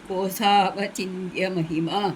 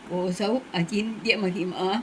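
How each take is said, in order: First: The first two words run together as one. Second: The first two words are said apart.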